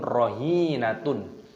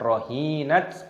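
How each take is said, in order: First: The word ends with a tun syllable. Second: The word ends with a t sound.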